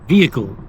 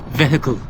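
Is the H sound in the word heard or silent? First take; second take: silent; heard. First: The H in the middle is silent. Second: The H in the middle is pronounced. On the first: "The H is silent" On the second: "So the H isn't silent in that one"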